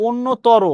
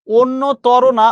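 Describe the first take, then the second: First: অন্যতর said crisply the right way; correct pronunciation. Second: অন্যতর stretched slowly as the wrong form; wrong way, drawn out. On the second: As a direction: drag out অন্যতর to show the mistake. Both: Shown as a demonstration.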